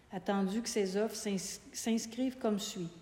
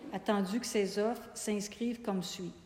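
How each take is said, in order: Both takes have the same delivery.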